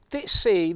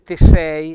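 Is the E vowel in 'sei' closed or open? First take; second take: closed; open. First: The E in sei sounds closed. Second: The E in sei sounds open. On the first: The speaker calls it right. "vedete quell'accento chiuso sulla E" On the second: The speaker calls it wrong. "per non dire te sei"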